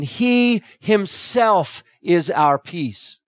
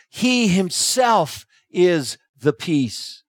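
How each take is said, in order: First: Slow, with "He" stressed and falling; dramatic emphasis. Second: Slow, with "He" stressed and falling; emphatic emphasis. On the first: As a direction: lean hard on "He", drawing out the line. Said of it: "in a dramatic way". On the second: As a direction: hit "He" firmly and take it slowly. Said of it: "The emphatic emphasis being placed there". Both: Shown as a demonstration.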